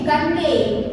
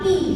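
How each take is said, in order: First: The vowel is read as spelled, not 'ee'. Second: The vowel is a long 'ee' sound. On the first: The speaker calls it wrong. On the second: The speaker calls it right. "Kalau E ketemu G biasanya jadi I ya"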